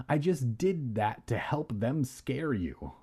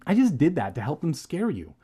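First: "did that to" said haltingly with softer, odd sounds; odd pronunciation. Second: Said in the usual way. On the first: Real, not acted. Reader fumbling the cousin's excuse, odd pronunciation of "did that to". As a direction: stumble oddly over "did that to help". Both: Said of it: "That was a weird pronunciation".

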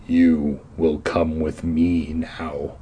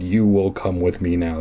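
First: Deep, slow menacing growl; low slow villain threat. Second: Mild deep villain line; half-voiced menace; lighter repeat of the growl. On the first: A narrator's reading. Caped man growls at the kids, deep and slow. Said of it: "he growled". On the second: Reader quoting the caped man, mildly deep. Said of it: "that was a pretty blatant thing he said".

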